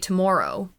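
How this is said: Tomorrow is said with a Canadian-sounding vowel. "I say tomorrow"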